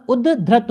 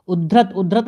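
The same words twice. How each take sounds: First: उद्धृत slow, held d, ud-dhrit; correct doubled consonant. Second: उद्धृत with a single light d, u-dhrit; wrong form demonstrated. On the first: Teacher gives the right word, slow correction. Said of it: "होता है". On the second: Teacher shows the rejected word, demonstrating an error. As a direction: run through उद्धृत without doubling the d. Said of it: "नहीं होता". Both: Shown as a demonstration.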